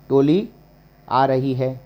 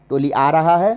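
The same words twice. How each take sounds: First: Said in the usual way. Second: Climbing question tune up to "रहा है"; questioned wrong form. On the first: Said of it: "टोली आ रहा है नहीं". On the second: Shown as a demonstration. Teacher testing wrong gender for students, rising query on "रहा है". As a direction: lift "आ रहा है" as an obvious mistake. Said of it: "नहीं".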